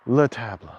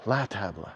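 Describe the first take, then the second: First: "Le table" said with le, as a puzzled guess; "Le table" with a short unstressed le; wrong article. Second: "la table" said with la, settling on it; "la table" with an open la; right article. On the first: Scene: unsure which article table takes, trying le. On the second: Scene: unsure which article table takes, settling on la. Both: Shown as a demonstration.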